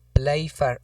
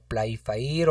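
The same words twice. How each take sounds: First: "Playfair" dicho en dos sílabas, «plái-far»; pronunciación alternativa. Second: "Playfair" read as spelled, «plai-fa-ír»; pronunciación alternativa. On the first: ("Playfair" pronunciado «plái-far») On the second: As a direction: say "Playfair" with a split final «fa-ír». ("Playfair" pronunciado «plai-fa-ír») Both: Shown as a demonstration. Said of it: "como lo queramos pronunciar".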